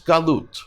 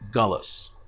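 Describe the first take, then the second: First: The word ends with a t sound. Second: The word ends with an s sound. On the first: "Another is galut" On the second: "or in Yiddish"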